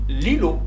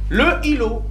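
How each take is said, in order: First: The vowel of le is dropped before îlot. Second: The vowel of le is sounded before îlot. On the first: The speaker calls it right. "Je dis l'îlot" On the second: The speaker calls it wrong. "c'est difficile"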